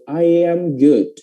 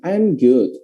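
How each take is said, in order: First: "I am" drawn out as "ai-yam", slow; full, slow "I-yam good"; linked I am. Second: "I'm" as one quick syllable "am"; short, contracted "I'm". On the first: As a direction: slowly glide "I" into "am" with a Y. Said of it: "ada huruf Y-nya". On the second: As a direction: say "I'm good" starting with a short "am". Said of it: "Jadi cara baca I am itu lebih cepat". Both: Shown as a demonstration.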